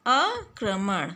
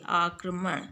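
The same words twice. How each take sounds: First: आक्रमण slowly, broken after "aa"; wrong pronunciation. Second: आक्रमण lower, in one piece; correct pronunciation. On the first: Teacher showing the misspelt word, आक्रमण slow. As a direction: stretch आक्रमण as "aa-kramaṇ". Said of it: "री की अशुद्धियाँ क्या है". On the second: Teacher giving the right word, आक्रमण low and unbroken. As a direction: run आक्रमण together as "aakramaṇ". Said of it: "तो ये सही". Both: Shown as a demonstration.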